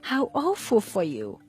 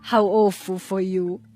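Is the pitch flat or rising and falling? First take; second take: rising and falling; flat. First: The pitch rises and then falls. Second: The pitch stays flat without rising and falling. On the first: The speaker sincerely sympathizes with the bad news. "with a rising and falling accent" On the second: The speaker is joking and does not mean it. "the tone of voice didn't rise and fall"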